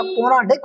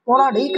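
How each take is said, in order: First: पौराणिक said slower with a short final vowel; correct form. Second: पौराणिक said quickly with a long "ee" before the final k; wrong form. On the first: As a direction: say पौराणिक carefully as "pau-raa-nik", short last syllable. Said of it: "पौराणिक होता है". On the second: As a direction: say पौराणिक as "pauraaneek", the mistaken form. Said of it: "पौराणिक नहीं होता". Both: Shown as a demonstration.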